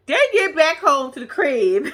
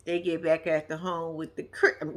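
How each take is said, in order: First: Repeats it slower, laughing through it; laughing correction. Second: Said in the usual way. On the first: Real, not acted. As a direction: fixes the slip while cracking up.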